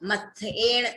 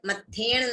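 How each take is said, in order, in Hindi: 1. दोनों भाग अलग-अलग बोले जाते हैं। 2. दोनों भाग एक साथ जुड़कर बोले जाते हैं। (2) "मत्थेण नहीं है"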